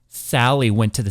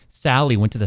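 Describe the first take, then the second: First: The S sounds are sharp and unfiltered. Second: The S sounds are dulled and softened. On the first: "Watch if I turn it off" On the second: "Now watch if I turn it on all the way"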